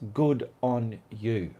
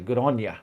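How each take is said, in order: First: It is said in a plain, neutral accent. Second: It is said in a broad Australian accent. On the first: "It means good on you" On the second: "but we say good on you"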